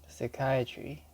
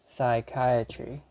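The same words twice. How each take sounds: First: It is said in a British English accent. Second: It is said in an American English accent. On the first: "In British English" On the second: "in American English"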